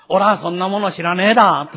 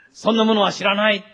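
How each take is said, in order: First: Louder, rustic Tohoku-dialect denial; Tohoku country dialect. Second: Said in the usual way. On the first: Acted. Preacher voices Peter as a Galilean countryman, in Tohoku dialect. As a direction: deny it like a Tohoku country bumpkin. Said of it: "日本であれば東北弁のような言葉で使ったわけです". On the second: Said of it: "日本であれば東北弁のような言葉で".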